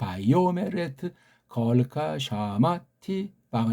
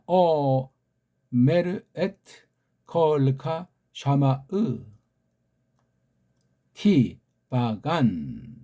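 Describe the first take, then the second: First: The first word has a y glide sound. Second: The first word has no y glide sound. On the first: This is the conventional standard reading. "걔네들이 정해놓은 식으로는" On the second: This reading follows each written letter. "우리는 ... 이렇게 읽습니다"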